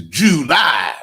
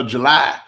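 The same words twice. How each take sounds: First: "July" stretched as JOO-LIE, both syllables big; slow, emphatic two-part "July". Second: "July" as juh-LIE, first syllable swallowed; quick juh at the start of "July"; reduced-syllable July. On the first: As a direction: draw out "July" with a full swooping "joo". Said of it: "This is July". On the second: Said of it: "this ain't no July". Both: Shown as a demonstration.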